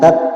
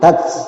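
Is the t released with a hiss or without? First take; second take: without; hiss. First: The t is released cleanly without a hiss. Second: The t is released with a breathy hiss. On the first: The speaker calls it wrong. "jangan tat ya" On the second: The speaker calls it right. "jadi hamas, ada suara seperti desis"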